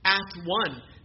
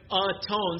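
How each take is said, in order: First: It is said as two separate words. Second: It is said as one joined word. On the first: "say it differently, instead of atone, say at one" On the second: "instead of atone"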